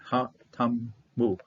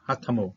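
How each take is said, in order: First: "Ha Tamu" slowly, syllable by syllable; sounded out slowly. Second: Said in the usual way. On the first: Shown as a demonstration. Teacher breaks down Hebrew for learners, "Ha Tamu" slowly sounded out. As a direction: draw out "Ha Tamu" with gaps between syllables.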